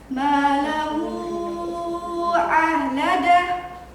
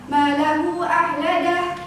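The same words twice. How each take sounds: First: The long vowel is held for five beats. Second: The long vowel is held for two beats. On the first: "Kalau lima ketukan" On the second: "Kalau bacaannya salah, ... panjang bacaannya dua harokat"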